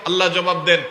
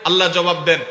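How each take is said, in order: No difference in how they are said.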